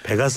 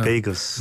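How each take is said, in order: First: The middle vowel is a plain short 'e'. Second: The middle vowel glides as 'ei'. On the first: The speaker calls it wrong. "베가스 아닙니다" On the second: The speaker calls it right.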